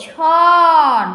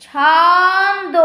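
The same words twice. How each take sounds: First: ছন said short and firm as its own syllable, louder; split-off syllable. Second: ছন্দ stretched very slowly, falling at the end; drawn-out demo word. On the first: Teacher breaking the word into syllables, clipping ছন off. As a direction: clip ছন off the word, firmly. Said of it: "ছনটা কিন্তু আমরা একসাথেই". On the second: Teacher to class, stretching ছন্দ out with a slow fall. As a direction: pull ছন্দ out long and let it fall. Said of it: "উম, উচ্চারণ করছি". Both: Shown as a demonstration.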